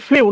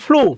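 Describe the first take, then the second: First: It has a y-glide before the vowel. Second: It has a plain oo vowel, no glide. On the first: The speaker calls it wrong. "অনেকে বলে ফ্লিউ, না" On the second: The speaker calls it right. "ফ্লু উচ্চারণটা মনে রাখবা"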